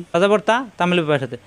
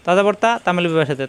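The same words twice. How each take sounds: The two takes are said the same way.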